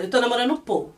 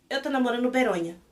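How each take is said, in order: First: No enthusiasm. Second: Unenthusiastic. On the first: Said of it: "Sem empolgação nenhuma". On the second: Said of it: "Com essa empolgação". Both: Retold or imitated.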